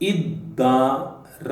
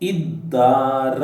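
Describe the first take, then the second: First: The word is said with a clipped ending. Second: The same.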